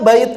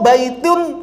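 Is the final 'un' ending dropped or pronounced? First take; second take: dropped; pronounced. First: The word ends without the 'un' sound. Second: The word ends with an audible 'un' sound. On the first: The reader stops on this word. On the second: The word is read on without stopping.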